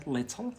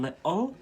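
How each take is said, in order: First: "little" with a clearly sounded t in the middle; English "little". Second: "little" drawn out with a glottal stop for the t; Scottish "little". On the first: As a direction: say "little" carefully, t pronounced. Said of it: "in England, they say little". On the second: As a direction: drop the t in "little", li'le. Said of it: "But here in Scotland". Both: Shown as a demonstration.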